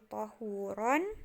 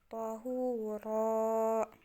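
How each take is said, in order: First: The word ends with an n sound. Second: The word ends with a long a vowel. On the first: The speaker calls it wrong. "Bukan lagi tahuron" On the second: The speaker calls it right. "tapi jadinya tahura"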